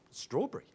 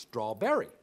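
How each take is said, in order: First: "strawberry" cut to two syllables, straw-bree; shortened pronunciation. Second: "strawberry" in three full syllables, straw-BERR-ee; full pronunciation. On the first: Australian taking the short way, "strawberry" as straw-bree. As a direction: swallow the middle of "strawberry". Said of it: "You can take the short way". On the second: Americans correcting his word, "strawberry" as straw-berr-ee in full. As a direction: sound out every syllable of "strawberry". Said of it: "It's got to be pronounced". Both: Shown as a demonstration.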